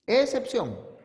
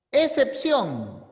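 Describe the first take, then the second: First: Said in the usual way. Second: Excepción slowed and stressed, every syllable drawn out; emphatic announcement. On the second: Shown as a demonstration. Teacher to students, slow emphatic Excepción. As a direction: announce Excepción slowly, leaning on it.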